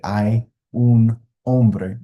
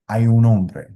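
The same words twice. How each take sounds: First: Each word is said separately and distinctly. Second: The words are run together without breaks. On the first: The speaker calls it wrong. "You're not going to hear a native speaker or an advanced speaker say" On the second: The speaker calls it right. "it's kind of smashed all together"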